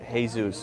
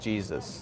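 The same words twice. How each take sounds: First: The name is said with a Spanish pronunciation. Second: The name is said with an English pronunciation. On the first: This is how the name is said in Mexico. "Mexico will be pronounced Jesus" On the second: This is how the name is said in America. "instead of Jesus"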